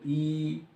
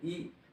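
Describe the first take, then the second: First: The vowel is held for longer. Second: The vowel is held briefly. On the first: "बड़ी ई कह रहे हैं तो" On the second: "छोटी ई कह रहे हैं तो"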